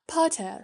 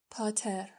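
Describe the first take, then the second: First: Potter called out high and sharp; pointed call. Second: «پاتر» whispered, soft and menacing; quiet. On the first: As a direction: call his name from above him. Malfoy addresses Harry pointedly. («پاتر» را با تحکم و صدای بالا صدا بزن) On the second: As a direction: breathe «پاتر» out as a threat. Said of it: "آهسته گفت". («پاتر» را آهسته و نجواگونه بگو) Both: A narrator's reading.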